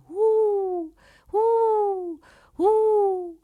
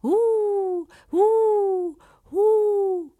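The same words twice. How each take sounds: First: High hooting owl calls. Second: High mocking owl hoots; owl hoot mimicked. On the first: A narrator's reading. The owl calling over and over at the shepherd, high owl hoot. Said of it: "chiamava continuamente". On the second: Shepherd hooting back at the owl to mock it, high owl hoot. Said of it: "gridò allo stesso modo indietro".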